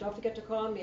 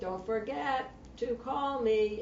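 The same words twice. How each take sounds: First: It is said quickly at a normal pace. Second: It is said slowly and with exaggeration. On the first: The speaker calls it wrong. "instead of" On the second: The speaker calls it right. "acting out little words like"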